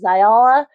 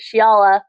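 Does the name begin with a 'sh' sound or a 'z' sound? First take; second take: z; sh. First: The name begins with a 'z' sound. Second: The name begins with a 'sh' sound. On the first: The speaker calls it wrong. "I was pronouncing it wrong" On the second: The speaker calls it right. "is how it was pronounced in the audiobook"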